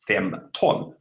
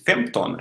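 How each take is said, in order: First: "fem ton" slowly, a gap between fem and ton; split into two words. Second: Said in the usual way. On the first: Shown as a demonstration. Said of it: "if you split that". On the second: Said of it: "fifteen in Swedish is femton".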